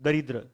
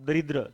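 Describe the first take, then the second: The two takes are said the same way.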